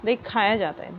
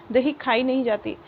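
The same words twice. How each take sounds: First: Said in the usual way. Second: Wrong form. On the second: Shown as a demonstration. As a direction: mark this as the wrong usage, lightly raised. (गलत रूप, थोड़ा ऊँचा बोलें)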